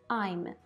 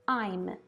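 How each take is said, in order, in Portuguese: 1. É pronunciado como uma sílaba contraída. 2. É pronunciado como uma sílaba contraída.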